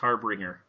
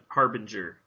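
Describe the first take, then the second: First: The name is said with an extra r. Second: The name is said without an extra r. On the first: The speaker calls it wrong. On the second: The speaker calls it right.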